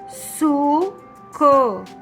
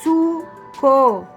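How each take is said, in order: First: It is said slowly, split into syllables. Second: It is said quickly as one smooth word. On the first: "Vamos lendo e separando as palavras" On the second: "Agora vamos ler rápido?"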